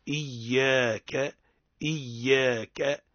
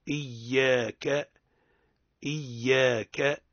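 The two takes are said the same way.

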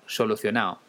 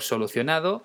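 First: The d before the final o is dropped. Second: The d before the final o is pronounced.

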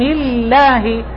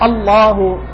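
First: The L sound is thin and light. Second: The L sound is thick and heavy. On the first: "ويرقق إذا سبق لفظ الجلالة كسر" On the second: "إذا كان مسبوقا بفتح أو ضم"

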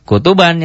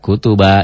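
First: The word ends with the -an ending. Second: The word ends in a lengthened a vowel. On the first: The reading continues without a stop. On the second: The reading stops on this word.

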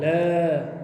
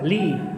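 First: The L is said with no vowel after it. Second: The L is followed by a short i vowel. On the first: The speaker calls it wrong. "Gibt's nicht" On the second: The speaker calls it right.

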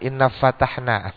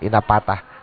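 First: The second word begins with an f sound. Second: The second word begins with a p sound. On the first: The speaker calls it right. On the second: The speaker calls it wrong.

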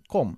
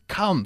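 First: The vowel is said with a closed jaw. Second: The vowel is said with a lowered jaw. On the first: The speaker calls it wrong. "antes decías siempre come" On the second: The speaker calls it right. "ahora dices come ... bajando siempre la mandíbula"

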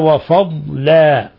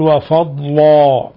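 First: The l sound is light and thin. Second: The l sound is heavy and thick. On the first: The speaker calls it right. "وإنما" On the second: The speaker calls it wrong. "لا تقول"

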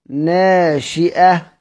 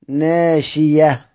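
First: A glottal stop follows the i vowel. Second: A y sound replaces the glottal stop. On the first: This is the reading that keeps the hamza. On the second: This is how it is read when pausing in Hamza's reading.

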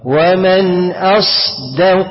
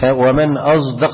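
First: The ṣād is voiceless with audible breathy hiss. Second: The ṣād sounds like a heavy, voiced z. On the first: The speaker calls it right. "هنعمل همس للصاد، ومن اص شايف الهمس صوت الهمسه" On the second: The speaker calls it wrong. "أقول لك أنت غلط كده، أنت كده خليت الايه الصاد عملت لها ايه اشمام فبقت ايه زايا ايه مفخمه"

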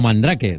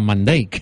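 First: The name is read the Spanish way. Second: The name is read the English way. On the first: This is how it was said as children at school. The speaker calls it wrong. "Nosotros en el cole llamamos el mago Mandrake" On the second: This is how the name is really pronounced. The speaker calls it right. "después subimos que esto se pronunciaba Mandrake"

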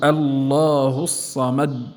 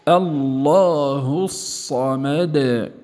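First: The final d stops abruptly with no release. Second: The final d is released with a slight bounce. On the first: The speaker calls it wrong. "لا نقول الله الصمد، هذا تصادم" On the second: The speaker calls it right. "فنقول"

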